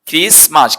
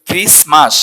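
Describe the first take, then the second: First: The t sound is left out entirely. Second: The t sound is left out entirely.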